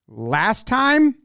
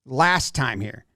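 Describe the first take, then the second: First: "Last time?" pitched up as a baffled question; puzzled question. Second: Low, slow and halting: Last time here; slow broken English. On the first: Catcher confused by the pitcher's sign, puzzled rising question. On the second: Pitcher explaining the pitch to his catcher, slow and low. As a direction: spell out "Last time here." slowly, word by word. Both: Retold or imitated. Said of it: "it looks to me like he says".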